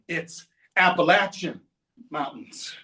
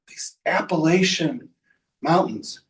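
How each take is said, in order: First: The stressed vowel is short, like in apple. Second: The stressed vowel is long, not like apple. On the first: The speaker calls it right. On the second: The speaker calls it wrong.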